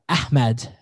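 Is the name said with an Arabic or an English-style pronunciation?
Arabic. The name is said with an Arabic pronunciation. "as the Arabs call it"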